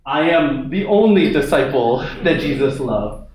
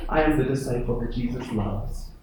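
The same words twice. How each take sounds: First: A proud disciple boasting he is the favourite; smug, puffed-up claim of being the only favourite; cocky boast. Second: Softer, quiet and amazed at being loved; a grateful disciple who can hardly believe it; hushed, humble amazement; humbled wonder. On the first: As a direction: say it like a self-important bragger. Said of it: "I don't think John's like". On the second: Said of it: "He's like". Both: Pretend.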